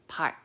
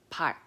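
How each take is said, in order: The two takes are said the same way.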